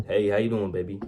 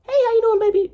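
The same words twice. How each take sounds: First: Said in the usual way. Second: Squeaky high, loud come-on; high-pitched voice. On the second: Shown as a demonstration. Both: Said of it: "the pitch".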